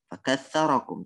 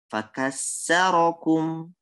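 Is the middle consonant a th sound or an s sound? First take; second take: th sound; s sound. First: The middle consonant is a th sound. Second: The middle consonant is an s sound. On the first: The speaker calls it right. "Aslinya itu" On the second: The speaker calls it wrong. "sa diganti dengan sin"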